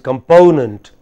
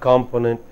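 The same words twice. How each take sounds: First: The stress is on the second syllable. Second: The stress is on the first syllable. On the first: The speaker calls it right. "It is component" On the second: The speaker calls it wrong. "It is not component"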